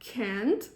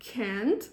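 First: It is said in an American accent. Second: It is said in an American accent.

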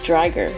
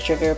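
First: The name is said as in the Japanese version. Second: The name is said as in the English dub. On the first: "the Japanese pronounced it as Driger" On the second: "the English anime pronounced it as Drigger"

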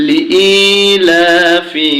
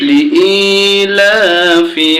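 The two takes are said the same way.

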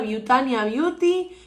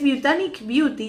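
First: The first word ends with an a vowel. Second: The first word ends with a k sound. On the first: The speaker calls it wrong. "He estado pronunciando mal esta marca" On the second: The speaker calls it right. "Es Butanic Beauty"

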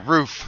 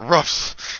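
First: The word is said as 'roof'. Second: The word is said as 'ruff'. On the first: The speaker calls it right. "It's R-O-O-F" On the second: The speaker calls it wrong. "you both say ruffs instead of roof"

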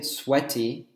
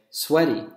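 First: The middle consonant is a crisp T sound. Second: The middle consonant is a soft D sound. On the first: The speaker calls it wrong. "we wouldn't say sweaty in American English" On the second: The speaker calls it right. "we would say sweaty"

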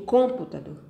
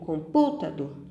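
First: The stress is on the first syllable. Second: The stress is on the second syllable. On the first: "Eu digo computador? Não" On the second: "Eu digo computador? Também não"

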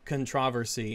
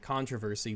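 First: The stress is on the second syllable. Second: The stress is on the first syllable.

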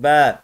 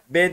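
First: The vowel is stretched long. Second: The vowel is short. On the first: The speaker calls it right. "Uzatıyor yani arkadaşlar bir elif" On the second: The speaker calls it wrong. "B demiyoruz artık"

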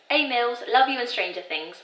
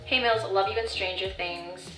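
First: It is spoken in a put-on British accent. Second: It is spoken in the speaker's normal accent.

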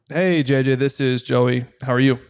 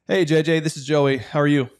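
First: The voice is flat and low in energy. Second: The voice is lively and fairly upbeat. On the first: The caller sounds bored. The speaker calls it wrong. "That's very boring" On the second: The caller sounds glad to be there without sounding fake. The speaker calls it right. "You want to be in the middle"

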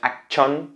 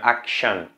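First: The middle consonant is a strong, hard sound. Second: The middle consonant is a soft 'sh' sound. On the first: The speaker calls it wrong. "No es action" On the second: The speaker calls it right. "siempre tiene esa sh suave"

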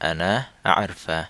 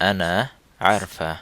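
Both takes have the same delivery.

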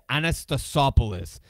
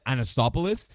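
First: The name has a 'sa' syllable before 'poulos'. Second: The name lacks the 'sa' syllable before 'poulos'. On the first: The speaker calls it right. "It's Anastasopoulos" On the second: The speaker calls it wrong. "I always said Anastopoulos"

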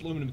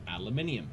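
First: It is said with four syllables, ending -num. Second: It is said with five syllables, ending -nium.

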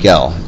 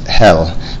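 First: The name starts with a j sound. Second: The name starts with an h-like sound. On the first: This is the English pronunciation. "but in English we pronounce it Gel" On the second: This is the Spanish pronunciation. "In Spanish, they'll say ... They pronounce G-E-L, his last name is Hell"

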